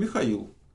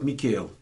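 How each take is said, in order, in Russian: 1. Имя произносят с русским горловым kh. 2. Имя произносят с американским произношением. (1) "а как по-настоящему звучит?" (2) "они меня зовут Микейл"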